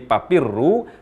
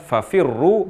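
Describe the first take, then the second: First: The word begins with a p sound. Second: The word begins with an f sound. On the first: The speaker calls it wrong. "perubahan huruf fa menjadi huruf p" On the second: The speaker calls it right. "mengucapkan fafirru"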